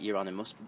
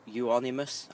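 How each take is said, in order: First: The word is said with an added R sound. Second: The word is said without any R sound. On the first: This is how most people say it. The speaker calls it wrong. "I hear everyone pronounce it Euonymus" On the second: This follows the spelling of the name. The speaker calls it right. "there's no R in it, so I, Euonymus"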